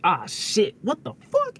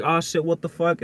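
First: Mock startled outburst. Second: Said in the usual way. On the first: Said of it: "instead of just being like". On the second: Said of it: "does it go like".

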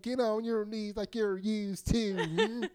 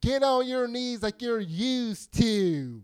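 First: Slow mocking line through giggles; laughing taunt. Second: Slow, loud sneering taunt; drawn out with contempt; menacing taunt. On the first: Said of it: "someone's like". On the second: Retold or imitated. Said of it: "how do you say that with an implied".

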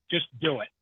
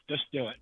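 First: Said in the usual way. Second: Much softer, almost to himself; softly repeated. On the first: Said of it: "don't ever try anything". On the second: Shown as a demonstration. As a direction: let the words fade away softer. Repeating advice, trailing off.

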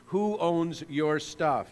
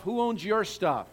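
First: Slow, weighty question; slow and deliberate. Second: Your pointed at the listener; stress on your. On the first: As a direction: say "Who owns your stuff?" slowly, stressing "who". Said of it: "the vital question that needs to be answered". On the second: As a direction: lean on "your" in "Who owns your stuff?". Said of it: "Who owns their stuff?". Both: Shown as a demonstration.

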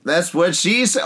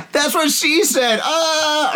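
First: Said in the usual way. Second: High, drawn-out joking cry; hammed-up innuendo. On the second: Friend repeating a dirty joke over foamy beer, high and hammed-up. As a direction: stretch it out way up high, mock moaning.

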